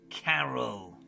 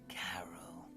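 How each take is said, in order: First: It is said in a normal voice. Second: It is said in a hoarse whisper.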